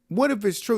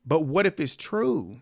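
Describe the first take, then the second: First: "What if it's true?" with WHAT raised higher; pushing back. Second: Said in the usual way. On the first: Shown as a demonstration. Recapper pushing back on the bride, WHAT raised high. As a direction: lift the word "what" high and press it.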